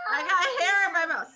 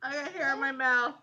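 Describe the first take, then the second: First: Talking around hair in mouth; words blocked by hair in mouth. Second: Hair still caught in mouth. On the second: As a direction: speak past hair in mouth. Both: Real, not acted.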